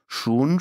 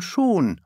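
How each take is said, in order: First: "Schon" with a rising tune, pondering; thoughtful rising. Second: "schon" falling, settled like a detective; thoughtful falling. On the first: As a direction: let "Schon" lift as if still thinking. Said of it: "meint Corwin nachdenklich". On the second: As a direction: close "schon" downward, deciding. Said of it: "meint Corwin nachdenklich wie ein Kriminalkommissar". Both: A narrator's reading.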